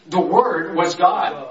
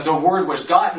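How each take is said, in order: First: "word" drawn out slowly; slow, deliberate weight on "word"; stress on WORD. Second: Said in the usual way. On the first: Shown as a demonstration. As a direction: lean on "word", taking the phrase slowly. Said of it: "He puts emphasis on the word".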